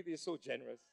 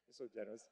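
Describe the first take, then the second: First: Said in the usual way. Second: They're so generous dropped much lower and softer; muttered aside. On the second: Shown as a demonstration. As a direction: mumble it to yourself, dry. Repeated as sarcastic aside.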